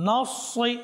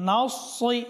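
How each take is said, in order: Both takes have the same delivery.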